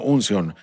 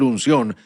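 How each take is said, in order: First: The word is said with a foreign accent. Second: The word is said in a plain standard way. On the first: This is how someone else said it. "porque él lo decía con acento" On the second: This is the intended word. "él quiere decir unción"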